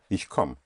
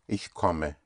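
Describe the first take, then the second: First: It is said in a casual, everyday way. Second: It is said in a careful, full way. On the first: This is how people commonly say it in speech. "In speaking, usually, but very often you hear" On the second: This is the proper full form. "But actually"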